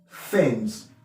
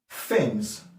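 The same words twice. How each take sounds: No difference in how they are said.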